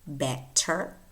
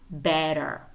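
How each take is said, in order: First: The middle consonant is a clear t. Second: The middle consonant is a quick tap. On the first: This is the British pronunciation. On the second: This is the American pronunciation.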